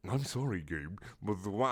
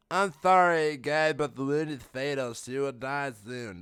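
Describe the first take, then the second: First: Put-on quiet, failed German accent; half-hearted try at a German accent, breaking off; attempted German accent. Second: Put-on medic voice. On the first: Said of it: "I got a German accent". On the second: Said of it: "That's medic".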